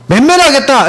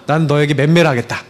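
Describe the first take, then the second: First: Higher, firm declaration of punishment; final notice. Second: Put-on measured, restrained ultimatum to a child; stern warning. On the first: Retold or imitated. Father gives final notice to child who won't eat, emphatic. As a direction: announce the punishment emphatically, pitch raised. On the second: Father gives his child a last chance, restrained warning. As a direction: lay down a last warning without raising the voice. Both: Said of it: "마지막으로 통보했어요".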